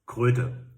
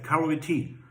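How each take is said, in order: First: It is said as the German word kröte. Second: It sounds like the English word karate. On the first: The speaker calls it right. "no, it's a German word, it's Kröte" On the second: The speaker calls it wrong. "he always talked about Karate"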